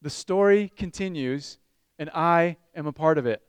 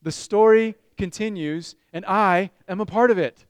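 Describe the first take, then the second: First: Put-on broad singsong kids theatre. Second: Loud congregation call. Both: Shown as a demonstration.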